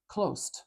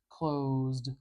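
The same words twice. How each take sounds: First: The word ends with a voiceless st cluster. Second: The word ends with a voiced zd cluster. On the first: The speaker calls it wrong. "like make that an S and a T, we don't want that" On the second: The speaker calls it right. "practice putting a consonant sound before d"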